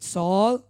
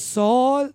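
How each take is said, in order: First: Said in the usual way. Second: Calling the name out loud and high; Jesus calls Saul's name loudly. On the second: Retold or imitated. Jesus calling out to Saul, loud and high. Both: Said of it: "in a very loud voice".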